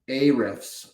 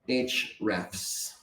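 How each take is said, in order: First: The name begins with an 'ay' sound. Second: The name begins with an 'aitch' sound. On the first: "I spoke about uh, A-refs earlier" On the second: "I think the company pronounces it H-refs"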